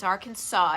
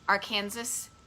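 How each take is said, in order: First: The word ends sounding like 'saw'. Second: The word ends sounding like 'Kansas'. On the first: The speaker calls it right. "but it's Arkansas" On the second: The speaker calls it wrong. "if you mispronounce Arkansas like Arkansas"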